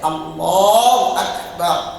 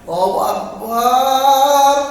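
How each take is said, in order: First: The vowel after the b is short. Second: The vowel after the b is drawn out. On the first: "A-nya pendek, B-nya pendek" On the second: "Sekarang kalau B-nya yang dipanjangkan"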